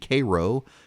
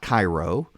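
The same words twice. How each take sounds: First: It uses the local Georgia pronunciation. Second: It uses the common, widely known pronunciation. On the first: The speaker calls it right. "in Cairo" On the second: The speaker calls it wrong. "not Cairo"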